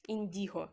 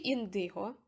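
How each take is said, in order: First: "індіго" with a soft і in the middle; soft-vowel pronunciation. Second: "індиго" with a hard и in the middle; hard-vowel pronunciation. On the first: Correcting herself on the listed trait, "індіго" with soft і. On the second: Reading the generator's list of traits, "індиго" with hard и. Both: Real, not acted. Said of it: "Я не можу ніколи вимовити це слово нормально".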